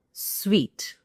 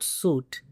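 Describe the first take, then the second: First: "suite" as SWEET, stretched slowly; long "ee" after the w in "suite"; correct pronunciation. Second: "suit" as SOOT, long "oo"; slow "suit", no w sound; common mispronunciation. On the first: Teacher correcting to the best room, "suite" like sweet. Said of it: "It's not suit". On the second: Teacher warning learners off the error, "suit" with oo. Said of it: "This is a common error". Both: Shown as a demonstration.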